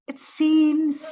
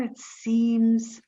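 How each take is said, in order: First: "seems" lifted much higher and rising; "seems" pitched high with a lift at the end; rising wonder. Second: Said in the usual way. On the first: Acted. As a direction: let "it seems" climb up in disbelief. Repeats, pitch jumps on second.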